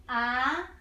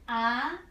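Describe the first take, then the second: No difference in how they are said.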